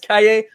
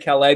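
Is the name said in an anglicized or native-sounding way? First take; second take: native; anglicized. First: The name is said with a native-sounding pronunciation. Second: The name is said with an anglicized pronunciation. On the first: "I think it's Calle" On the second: "I just say Calais because I'm not going to use, I, I can't use that proper pronunciation"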